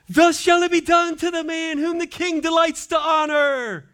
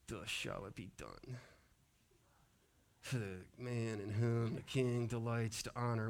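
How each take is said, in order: First: It is said proudly and loudly. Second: It is said reluctantly, in a mumble.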